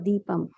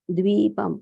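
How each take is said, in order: First: The word begins with a plain 'd' sound. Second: The word begins with a 'dv' sound. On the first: The speaker calls it wrong. "not deepam" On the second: The speaker calls it right. "it is द्वीपं"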